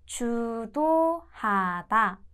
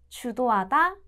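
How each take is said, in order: First: The word is said slowly and carefully. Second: The word is said at normal speed.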